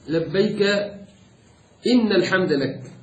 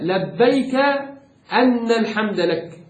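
First: The word after labbayk begins with inna. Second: The word after labbayk begins with anna. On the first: The answer to the call is unconditional. The speaker calls it right. "يروى فيه فتح الهمزة وكسرها والكسر أجود" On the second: The answer is given because praise belongs to the one called. The speaker calls it wrong. "لو فتحنا الهمزة يبقى لبيك لأن الحمد لك"

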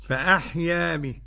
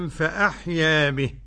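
No difference in how they are said.

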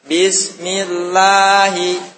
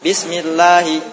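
First: The word is recited slowly, vowels drawn out. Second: The word is recited quickly, vowels kept short. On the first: "Ketika baca satu harokatnya lambat" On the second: "Sekarang baca cepat"

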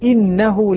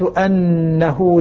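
First: The first vowel is an 'i' sound. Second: The first vowel is an 'a' sound. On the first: "حمزة والكسائي يقول بالكسر" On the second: "الباقون يقرؤون بفتح الهمزة"

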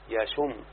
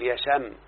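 First: The sh sound is followed by a u vowel. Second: The sh sound is followed by an a vowel. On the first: This is the everyday colloquial form. The speaker calls it wrong. "يشم بضم الشين" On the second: This is the more eloquent classical form. The speaker calls it right. "الأفصح فتح الشين، تقول يشم"

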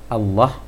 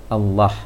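The two takes are said the same way.

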